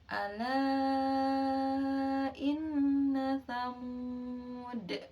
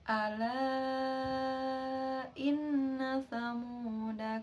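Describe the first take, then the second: First: The last word ends on a bare consonant. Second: The last word ends on a short vowel. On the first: The reader stops after this word. "Jika dibaca waqaf" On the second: The reader continues without stopping. "ketika dibaca uh, wasol"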